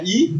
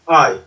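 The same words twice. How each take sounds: First: Said in the usual way. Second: I said "eye", gliding from ah to ee; I as diphthong. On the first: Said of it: "même si ça s'écrit avec un I". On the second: Shown as a demonstration. Teacher showing how the written letter is really pronounced, I as a diphthong. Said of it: "vous voyez que ça se prononce".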